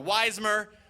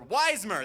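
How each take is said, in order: First: The name is said in a plain, flat way. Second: The name is said loudly with excited energy.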